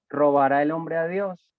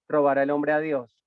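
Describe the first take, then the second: First: It is said as a question. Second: It is said as a statement.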